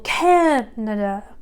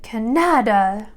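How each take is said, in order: First: The stress is on the first syllable. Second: The stress is on a later syllable. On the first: The speaker calls it right. "Imagine that you shout that first syllable" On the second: The speaker calls it wrong. "suddenly it doesn't sound like the word you're looking for"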